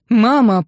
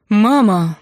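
First: Loud, lost for words; can only get out Mama, loud and stuck; panicked. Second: Loud, panicked call to his mother; scared son blurts out Mama, louder; frightened cry. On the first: Son stuck on one word to his mother, loud and panicked. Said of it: "проговорил Кирилл, явно позабыв все остальные слова". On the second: Son phoning his mother at dawn, loud and frightened. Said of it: "голос сына был сбивчивым, нервным и ужасно перепуганным". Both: A narrator's reading.

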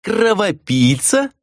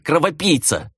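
First: High, drawn-out questioning echo; mock-incredulous repeat of her insult; amused mockery. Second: High-pitched insult hurled in anger; accusing, falling at the end; furious growl. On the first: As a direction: stretch the insult into a rising, teasing question. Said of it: "рассмеялся Миклаш и отвесил шутливый поклон". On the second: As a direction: fling the name as a furious insult. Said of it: "яростно прорычала Хранья". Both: A narrator's reading.

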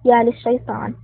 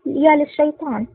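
First: "يا للشيطان" cut in with a light lift on "يا"; a mild interrupting exclamation; mild shout. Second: "يا للشيطان" drawn out slow, pitched higher, falling; stunned and frightened, slower and higher; panicked gasp. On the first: Haiin interrupts Joseph with a startled exclamation. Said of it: "قاطع حايين صائحا". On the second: Joseph, terrified, learns who tricked him. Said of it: "اتسعت عينا جوزيف ذعرا وقال بتلعثم". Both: A narrator's reading.

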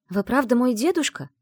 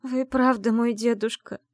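First: High, louder hopeful question; взволнованный вопрос. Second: Slow, high choked question; holding back tears. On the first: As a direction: ask with a catch of hope. Героиня робко спрашивает старика. (взволнованно, с надеждой) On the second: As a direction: force it out through tears. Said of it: "глотая слёзы, выдавила я". (сквозь слёзы, медленно и выше) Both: Acted.

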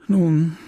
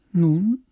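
First: A voiced, understated sigh on one word. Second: NUN rising as a higher question; questioning reply. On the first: Leon resuming after the silence, sighing. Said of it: "seufzte Leon". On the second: Emma answering Leon's sigh, questioning. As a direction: lift NUN upward into a question. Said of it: "erwiderte sie". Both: A narrator's reading.

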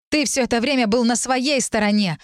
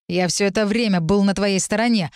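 First: Higher-pitched angry retort; snapping back. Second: Mildly angry protest at normal pitch; a touch of firm anger. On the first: Heroine turning Lir's words against him, snapping. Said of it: "огрызнулась я". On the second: Lir insisting on his loyalty, angry. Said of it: "злился Лир". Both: A narrator's reading.

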